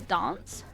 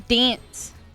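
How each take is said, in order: First: The vowel is a long 'ar' sound. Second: The vowel is a flat, nasal A sound. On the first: "I say dance with the R" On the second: "Americans and Australians go dance, dance with a ing in the A"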